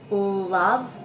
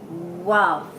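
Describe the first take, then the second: First: The word begins with an L sound. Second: The word begins with a W sound. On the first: The speaker calls it right. "the tongue is sitting up high with the ul" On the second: The speaker calls it wrong. "the tongue with the W is sitting down low"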